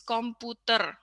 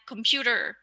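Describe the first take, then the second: First: It is said with Indonesian pronunciation. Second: It is said with English pronunciation. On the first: "it becomes komputer in Indonesian. So we adapt the uh, phonology" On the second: "so like computer"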